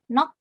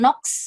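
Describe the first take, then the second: First: The word ends in a plain K sound. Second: The word ends in a KS sound. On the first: The speaker calls it right. "dibacanya hanya gioknya saja dilafalkan K" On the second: The speaker calls it wrong. "Jadi bukan nox gitu"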